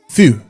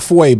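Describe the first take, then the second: First: The word sounds like 'few'. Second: The word sounds like 'fway'. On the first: The speaker calls it right. "It's Few" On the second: The speaker calls it wrong. "It's not Fouet"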